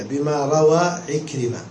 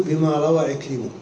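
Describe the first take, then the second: First: Slow demo: "عكرمة" read ikrima, open fatha on the mim kept; name kept whole. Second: "عكرمة" said as ikrimu, damma moved onto the mim; truncated name ending in -mu. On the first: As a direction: read "بما روى عكرمة" slowly, mim staying open. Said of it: "تقراها كذا". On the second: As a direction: read "بما روى عكرمة" ending in -mu, ta dropped. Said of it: "وإن بغيت تقول". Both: Shown as a demonstration.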